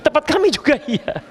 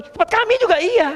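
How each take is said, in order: First: Said in the usual way. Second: Much higher playful echo; squeaky playful agreement; mock eager reply. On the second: Preacher jokes answering the question, high playful.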